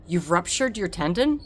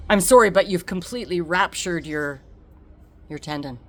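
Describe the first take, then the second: First: Disbelieving question rising on tendon; stunned echo. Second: Said in the usual way. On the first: Retold or imitated. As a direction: repeat the news in shock. Echoing shocked diagnosis.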